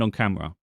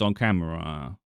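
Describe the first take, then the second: First: The last syllables are said at normal length. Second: The last syllables are dragged out long.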